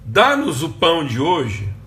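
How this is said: It is said as a pleading request.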